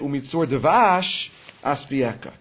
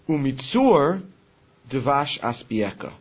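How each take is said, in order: First: The phrase breaks right after devash. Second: The phrase breaks right after umitzur. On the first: It speaks of a honey stone. The speaker calls it wrong. "A lot of people say" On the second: From the stone, it gives honey. The speaker calls it right. "The proper way to say it is"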